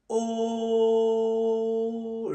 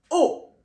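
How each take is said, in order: First: The pitch stays level and flat. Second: The pitch falls downward. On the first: "Il est tout plat" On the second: "Tout simplement, descend"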